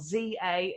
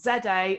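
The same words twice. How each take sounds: First: The letter Z is said as American "zee." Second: The letter Z is said as British "zed." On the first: "if you're in the States" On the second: "in my British accent"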